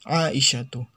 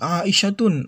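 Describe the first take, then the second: First: The name ends on a bare vowel. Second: The name ends with an added n sound. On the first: The speaker calls it right. "tidak ditanwinnya" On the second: The speaker calls it wrong. "Jadi jangan kita baca Aisyatun"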